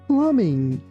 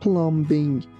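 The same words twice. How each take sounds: First: No B sound is pronounced after the M. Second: A B sound is pronounced after the M. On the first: The speaker calls it right. "We say plumbing" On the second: The speaker calls it wrong. "we don't pronounce letter B. We don't say plumbing"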